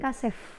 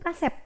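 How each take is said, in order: First: The word ends with an f sound. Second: The word ends with a p sound. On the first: The speaker calls it wrong. "bukan kasef ya" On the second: The speaker calls it right. "saya mengatakan pada yang ganteng-ganteng itu kasep"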